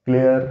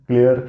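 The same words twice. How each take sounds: The two takes are said the same way.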